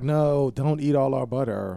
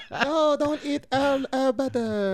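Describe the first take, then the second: First: Passive aggressive. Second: High, slow, whiny imitation; mock high plea. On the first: Retold or imitated. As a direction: say it politely but pointedly, slower. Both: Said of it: "Even that was passive aggressive".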